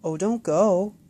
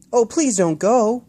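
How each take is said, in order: First: Disappointed plea. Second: Put-on high, loud, slow child plea; pleading call. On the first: Acted. Boy begging the bird to stay, disappointed. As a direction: plead as the bird leaves. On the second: Boy calling after the flying bird, pleading loudly. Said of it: "Will called".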